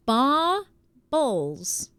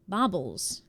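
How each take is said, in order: First: "Baubles" split into two long syllables, baw... buls; BAUBLES sounded out. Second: Said in the usual way. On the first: Shown as a demonstration. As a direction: stretch "Baubles" slowly, syllable by syllable. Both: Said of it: "How are you supposed to say it".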